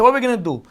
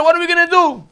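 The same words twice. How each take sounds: First: Said in the usual way. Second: Higher, pleading call to Moshe; panicked cry. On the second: Acted. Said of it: "they scream to Moshe".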